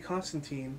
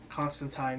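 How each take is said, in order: First: It is pronounced the usual North American way. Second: It is pronounced the usual British way. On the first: "that's pretty much how we would pronounce it here in North America" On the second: "being that he is a British gentleman"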